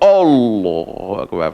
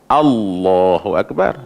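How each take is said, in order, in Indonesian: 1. Hamzah pembuka itu tebal. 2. Hamzah pembuka itu tipis. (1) "tertebal sekali dengan dengan hamzah" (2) "Padahal kena baca"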